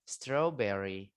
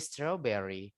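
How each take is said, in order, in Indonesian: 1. Bunyi r hampir tidak diucapkan. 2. Bunyi r hampir tidak diucapkan.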